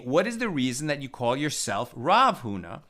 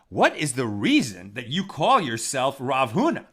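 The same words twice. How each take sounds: First: It is said in a plain, sincere tone. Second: It is said in a mocking, sarcastic tone. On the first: The speakers genuinely ask why he uses the title. The speaker calls it right. "they're not being sarcastic" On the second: The speakers doubt he deserves the title. The speaker calls it wrong. "That's the way I read it the first time"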